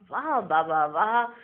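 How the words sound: It is said warmly, with real feeling. The praise comes sincerely from the heart. The speaker calls it right. "और कोई दिल से गाते हैं"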